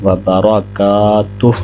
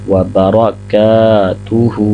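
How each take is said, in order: First: It ends on the h with no vowel. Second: It ends with a final vowel after the h. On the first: The recitation stops here. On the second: The recitation continues without stopping.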